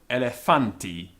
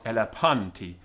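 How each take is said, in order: First: The word uses a later Koine Greek pronunciation. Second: The word uses an older classical Greek pronunciation. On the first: "this later pronunciation" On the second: "not elephanti"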